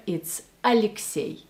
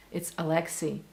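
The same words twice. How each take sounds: First: Alexei said the Russian way, a-lik-SYEY; Russian pronunciation. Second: Alexei said the English way, a-LEK-see; anglicised Alexei with a plain hard L; English pronunciation. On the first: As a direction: say "Alexei" as a Russian, stress on the last syllable. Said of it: "And in Russia, it's Alexei". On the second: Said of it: "maybe in English it's Alexei". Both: Shown as a demonstration.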